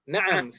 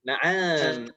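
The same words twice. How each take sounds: First: The vowels are short and clipped. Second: The vowel is drawn out and long. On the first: It means yes. The speaker calls it right. "na'am itu pendek semuanya" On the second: It means ostrich. The speaker calls it wrong. "agak diseret"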